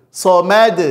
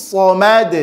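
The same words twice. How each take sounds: Both takes have the same delivery.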